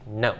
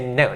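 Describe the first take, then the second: First: "No" short, strong and falling. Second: "No" short and strong, falling. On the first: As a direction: snap "No" down quickly. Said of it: "short and strong, so, and quick". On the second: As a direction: hit "No" hard and quick. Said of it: "that would be strong and short". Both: Shown as a demonstration.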